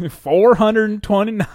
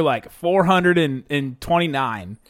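First: Laughing Southern twang; slow, loud Southern accent. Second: Slow Southern drawl; Southern accent. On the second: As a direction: stretch it out Southern style. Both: Pretend. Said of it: "I just said that in a Southern accent".

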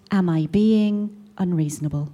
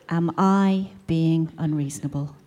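First: Said in the usual way. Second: Slow, drawn-out smug mummy asking; slow smug drawl. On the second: Shown as a demonstration. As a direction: spell out the title like a whiny complaint. Forum title, drawn out.

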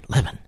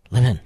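First: "Levin" stressed on LEV; first-syllable stress. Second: "Levin" stressed on VIN; second-syllable stress. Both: Shown as a demonstration. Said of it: "Is it Levin?".

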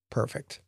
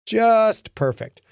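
First: Much softer, dry sour aside; muttered sarcasm. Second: Higher, slow, drawn-out sarcasm; heavy sarcasm. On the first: Lincoln reacting to Billy's remark, soft sarcastic mutter. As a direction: mutter it under your breath, fed up. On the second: Lincoln exasperated at the kid, slow sarcastic emphasis. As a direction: lean into the exasperation. Lincoln's sour inner reaction. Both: Acted.

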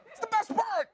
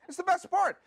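First: Exasperated emphasis. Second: Said in the usual way. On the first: Real, not acted. Exasperated repeat of point.

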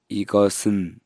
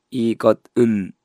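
First: イゴスン with the ス carried over smoothly; linked pronunciation. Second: イゴッウン said letter by letter, ッ and ウン kept apart; spelling pronunciation. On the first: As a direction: say イゴスン, the final consonant moving into the next syllable. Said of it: "イゴスンと言います". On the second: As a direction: read イゴッウン as written, each syllable separate. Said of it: "イゴッウンっては言わないですよね". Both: Shown as a demonstration.

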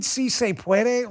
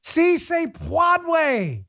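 First: "puede" as "pweh-deh"; correct Spanish pronunciation. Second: "puede" botched as "pwahd-way", very slow, high-pitched mockery; Jill Biden. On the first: Shown as a demonstration. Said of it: "You mean si se puede?". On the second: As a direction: stretch "puede" into an exaggerated "pwahd-way". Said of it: "Jill Biden".

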